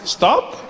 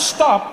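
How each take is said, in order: First: It is said as a tentative suggestion. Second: It is said as a firm command.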